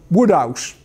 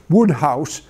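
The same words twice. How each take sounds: First: The h is dropped, in the local dialect. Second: The h is sounded, in standard English.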